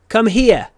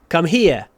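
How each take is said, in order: The two takes are said the same way.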